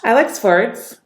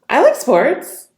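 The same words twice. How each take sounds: First: The voice sounds happy and uplifted. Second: The voice sounds surprised and high-pitched. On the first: "Happy. Uplifting tonality" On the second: "High-pitched. Surprised"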